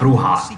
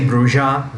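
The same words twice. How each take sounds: First: The name is said with a Spanish pronunciation. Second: The name is said with a non-Spanish pronunciation. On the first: This is the word for witch. The speaker calls it wrong. "it's not Bruja. Bruja is the pronunciation of the Spanish word for witch" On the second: This is the clan's name. The speaker calls it right. "I'm gonna say Bruja"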